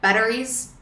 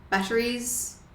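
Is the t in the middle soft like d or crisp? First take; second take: d-like; crisp t. First: It has a broad Aussie flapped d-like t. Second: It has a crisp, clearly pronounced t.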